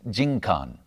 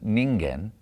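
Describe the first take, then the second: First: The word is read as jinkan. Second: The word is read as ningen. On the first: The world, society or community. The speaker calls it right. "pronounce it as jinkan" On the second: A single human person. The speaker calls it wrong. "rather than ningen"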